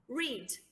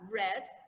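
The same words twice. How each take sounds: First: The vowel is long, like in 'reed'. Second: The vowel is short, like in 'red'. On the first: It is the present tense. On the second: It is the past tense.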